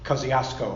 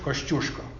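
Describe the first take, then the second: First: The name is said with English sounds. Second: The name is said with Polish sounds. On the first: "otherwise known as" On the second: "the correct pronunciation of his name is"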